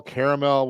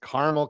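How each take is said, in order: First: "caramel" said as CARE-uh-mel; "caramel" with the middle vowel kept, CARE-uh-mel; three-syllable pronunciation. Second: "Caramel" said quickly as CAR-mul; "Caramel" as two syllables, CAR-mul; two-syllable pronunciation. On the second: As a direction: say "Caramel" with the middle vowel dropped, car-mul. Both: Shown as a demonstration. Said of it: "How do you say it?".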